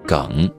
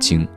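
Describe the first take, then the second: First: The word is pronounced geng. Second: The word is pronounced jing. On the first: This is the current standard reading. "但现在要读梗" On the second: This was the older standard reading. "原来是读精"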